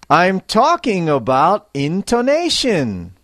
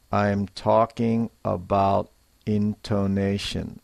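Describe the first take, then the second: First: Higher, louder, with life and feeling; lively intonation. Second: Said in the usual way. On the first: Shown as a demonstration. Teacher demonstrating to learners, with lively feeling. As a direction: put feeling into the line. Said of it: "the life and feeling in your voice". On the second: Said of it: "to sound natural when we speak English".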